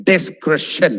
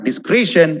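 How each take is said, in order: First: Discretion as slow "dis-KRESH-un"; short E in the middle of discretion; correct pronunciation. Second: Discretion as "dis-KREE-shun"; wrong pronunciation. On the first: Teacher correcting discretion, correct pronunciation. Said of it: "it's discretion". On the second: Teacher showing the common mistake, discretion mispronounced. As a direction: give discretion a long "ee". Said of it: "It's not discretion". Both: Shown as a demonstration.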